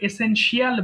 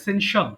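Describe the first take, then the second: First: The ending is said as a separate 'shee-al'. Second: The ending is said without a separate 'shee-al'. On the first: The speaker calls it wrong. "আমরা অনেক সময় ভুল করে এসেনশিয়াল বলি, শিয়াল না" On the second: The speaker calls it right. "শিয়াল না"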